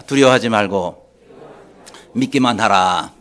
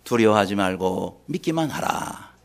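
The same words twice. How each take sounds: First: Loud, low, declaimed phrases; call to repeat. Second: Low, slow, measured command; solemn voice of Jesus. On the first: Shown as a demonstration. Preacher has congregation repeat Jesus' words, loud leading call. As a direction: lead the congregation loudly, phrase by phrase. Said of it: "따라합시다". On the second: Acted. Jesus answering a despairing father, solemn low command. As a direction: pronounce it slowly and low. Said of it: "예수님이 그때 뭐라고 말씀하셨습니까".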